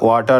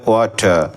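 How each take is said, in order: First: The final r sound is pronounced. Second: The final r sound is silent. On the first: The speaker calls it wrong. "ওয়াটার না বলে" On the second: The speaker calls it right. "বলতে হবে ওয়াটার"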